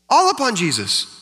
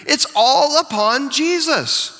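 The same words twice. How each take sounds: First: Said in the usual way. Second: All drawn out high and slow; stress on all. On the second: Shown as a demonstration. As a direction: lean on the word all, slowly.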